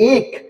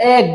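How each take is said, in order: First: The vowel is a closed e sound. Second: The vowel is an open ae sound. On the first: The speaker calls it wrong. "এক না কি বলি?" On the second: The speaker calls it right. "এক বলি"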